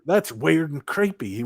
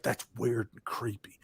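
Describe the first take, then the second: First: Slow, higher mock Southern drawl. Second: Slow whispered Southern drawl. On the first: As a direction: stretch the words in an imitated Southern accent. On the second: Retold or imitated. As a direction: whisper it, drawn out, imitating a spooked Southerner. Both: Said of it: "that little southern drawl popping in there".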